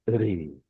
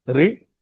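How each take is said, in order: First: रि drawn out, lower and softer; sustained vowel on रि; long vowel. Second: रि said short; one quick beat on रि; brief ri with a short vowel on रि. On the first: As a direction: stretch रि into a long ree. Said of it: "ज्यादा समय के लिए बोला जाएगा". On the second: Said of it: "एक मात्रा में बोला जाएगा". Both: Shown as a demonstration.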